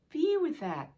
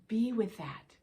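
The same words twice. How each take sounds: First: "Be" pitched higher and pressed hard; emphatic repeat. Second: Said in the usual way. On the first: Shown as a demonstration. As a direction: lean on "Be", higher the second time.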